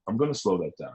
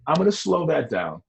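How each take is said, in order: First: The same line again, lower and softer; a softer, lower echo of the line; quiet repeat. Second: Said in the usual way. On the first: Shown as a demonstration. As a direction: let the repeat drop low and quiet.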